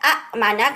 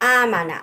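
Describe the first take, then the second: First: A catch in the throat breaks the first syllable. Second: The first vowel is long and smooth. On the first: The speaker calls it wrong. "Kind of আমি একটা হিকাপ দিচ্ছি" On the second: The speaker calls it right. "আলিফের উপরে হচ্ছে একটা মাদ দিয়ে দেয়"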